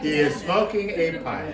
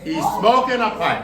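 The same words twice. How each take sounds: First: "He is smoking a pipe" spelt out slowly and clearly; slow emphatic restatement. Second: Laughing repeat. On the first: Shown as a demonstration. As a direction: lay it out word by word for the class. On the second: Real, not acted.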